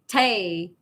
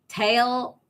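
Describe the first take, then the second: First: The word ends without an L sound. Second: The word ends with a clear L sound. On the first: The speaker calls it wrong. "your L sound is not going to come out" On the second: The speaker calls it right. "Tail accepted"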